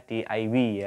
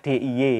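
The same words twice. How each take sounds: First: The letters are named the Malaysian way. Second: The letters are named the Indonesian way. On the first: "kalau di Malaysia D I Y ya" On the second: "Kalau di sini dibaca D I Y ya"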